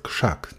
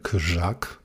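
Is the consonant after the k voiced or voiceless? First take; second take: voiceless; voiced. First: The consonant after k is voiceless. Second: The consonant after k is voiced. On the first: The speaker calls it right. "Głoska działa modyfikująco na głoskę po niej następującą" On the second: The speaker calls it wrong. "Nie mówimy krzak"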